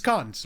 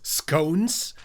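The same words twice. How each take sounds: First: The vowel is short, rhyming with con. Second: The vowel is long, rhyming with cone. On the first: "it's pronounced scones" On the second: "it is totally written as scones, like cone"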